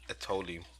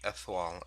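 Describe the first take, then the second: First: The name is said in an anglicized way. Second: The name is said the French way. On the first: The speaker calls it wrong. "I was calling Etoile Etoli" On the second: The speaker calls it right. "how to pronounce it since it was French"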